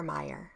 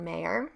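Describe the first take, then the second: First: Meyer said softly as MY-er; alternative pronunciation. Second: Meyer said tentatively as MAY-er, rising at the end; tentative pronunciation. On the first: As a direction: correct yourself quietly, Meyer as MY-er. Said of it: "I think it's Meyer". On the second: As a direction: try Meyer as MAY-er, unsure. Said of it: "I think that's how you say it". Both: Shown as a demonstration.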